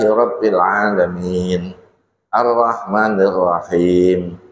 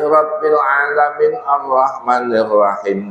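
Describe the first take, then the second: First: A pause follows 'Alamin', with no final vowel. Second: 'Alamin' links on without any final vowel. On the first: Each verse is read as a stop. The speaker calls it right. "ayat per ayat, itu harus disela dengan nafas" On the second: It is neither a proper stop nor a proper connection. The speaker calls it wrong. "dikatakan wasol kok harokatnya nggak terbaca"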